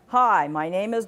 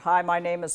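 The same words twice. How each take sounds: First: The pitch moves up and down conversationally. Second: The pitch stays flat with no inflection. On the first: The speaker calls it right. "Did you hear what your voice was doing?" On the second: The speaker calls it wrong. "monotone. No inflection. Isn't that boring?"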